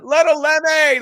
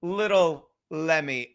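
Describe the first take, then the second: First: High, loud announcement of the name; big, pitched-up welcoming holler; excited call-out. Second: Said in the usual way. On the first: Real, not acted. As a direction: shout the guest's name like a hype man. Calling out the guest's name.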